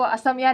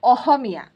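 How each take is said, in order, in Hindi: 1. बीच का व्यंजन एक साफ s ध्वनि है। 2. बीच का व्यंजन एक हल्की h-जैसी ध्वनि है। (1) "आपको असमिया नहीं बोलना है" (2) "आपको बोलना है अहोमिया"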